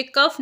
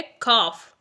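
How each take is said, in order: First: कफ with a short a, kuff; wrong pronunciation. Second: कॉफ with an open o, kawf, said slowly; correct pronunciation. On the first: Teacher showing learners the mistake, short kuff. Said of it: "ये कफ नहीं है". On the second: Teacher showing learners the right way, slow kawf. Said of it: "ये है कॉफ". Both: Shown as a demonstration.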